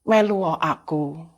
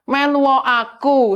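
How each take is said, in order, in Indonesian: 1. Diucapkan dengan lembut dan pelan. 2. Diucapkan lebih keras dan tegas. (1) "suaranya halus sekali" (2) "Yang terakhir lebih keras lagi"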